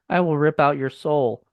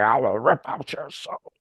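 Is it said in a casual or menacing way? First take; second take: casual; menacing. First: It is said casually, like normal conversation. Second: It is said in a menacing, demonic way.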